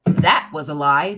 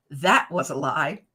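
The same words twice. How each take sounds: First: Loud verdict. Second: Maury Povich verdict. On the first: Shown as a demonstration. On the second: Retold or imitated. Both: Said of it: "Maury Povich says".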